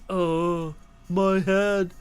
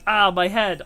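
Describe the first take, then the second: First: It is said in a flat monotone. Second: It is said with normal expression.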